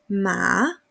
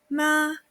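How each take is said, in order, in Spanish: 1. El tono baja y luego sube. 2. El tono se mantiene alto y plano. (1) "Tercer ejemplo" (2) "Con primer tono"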